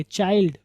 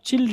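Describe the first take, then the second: First: चाइल्ड with a long eye vowel; correct pronunciation. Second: चिल्ड with a short i; short-vowel chilld for child; mispronunciation demo. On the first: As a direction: model चाइल्ड clearly as chy-ld. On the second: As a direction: say चिल्ड wrongly, rhyming with filled. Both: Shown as a demonstration. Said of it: "इसको आप चिल्ड नहीं पढ़ेंगे".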